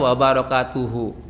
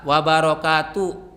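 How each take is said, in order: First: The word ends with a final u vowel. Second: The word ends in the h with no vowel. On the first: "Kalau mau di dibaca biasa"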